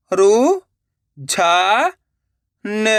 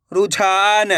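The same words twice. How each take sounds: First: रु, झा, न as separate sounds; syllable by syllable. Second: Said in the usual way. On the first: Shown as a demonstration. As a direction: sound out रु, झा, न with pauses. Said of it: "एक एक अक्षर का उच्चारण करके". (रु, झा, न एक-एक अक्षर रुक-रुक कर) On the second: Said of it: "direct मात्रा का उच्चारण करके पढ़ेंगे".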